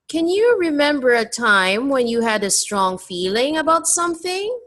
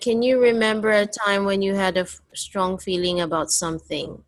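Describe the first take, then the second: First: The voice rises at the end of the question. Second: The voice does not rise at the end. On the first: The speaker calls it right. "your voice must go up because it's a question" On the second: The speaker calls it wrong. "you read it like this"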